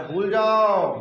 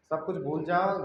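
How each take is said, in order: First: Loud drawn-out holler; mock yell. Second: Said in the usual way. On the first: Teacher mocking oblivious chanter as snake appears, mock yell. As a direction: belt it out long, as a mock command. Mocks forgetting all despite snake.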